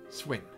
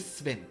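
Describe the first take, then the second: First: The name begins with an 'sw' sound. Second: The name begins with an 'sv' sound. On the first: The speaker calls it right. "I say Swen as you would say S W E N" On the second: The speaker calls it wrong. "I don't say Sven"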